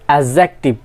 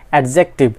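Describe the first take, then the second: First: The d sound is left silent. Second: The d sound is clearly pronounced. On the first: The speaker calls it right. "It's অ্যাডজেক্টিভ" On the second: The speaker calls it wrong. "Not অ্যাডজেক্টিভ"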